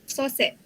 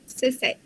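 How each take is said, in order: First: It is said in Negeri Sembilan dialect pronunciation. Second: It is said in standard Malay pronunciation. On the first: "Dalam Dialek Negeri Sembilan" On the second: "bahasa Melayu standard"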